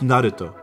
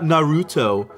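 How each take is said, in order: First: The name is said with Japanese-style sounds. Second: The name is said with English-style sounds. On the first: The speaker calls it right. "It's Naruto" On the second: The speaker calls it wrong. "Not Naruto"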